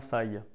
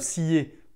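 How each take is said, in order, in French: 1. Le nom se prononce à l'américaine. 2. Le nom se prononce à la française. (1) "on dit bien Sai, voilà, à l'américaine" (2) "on dit pas scié"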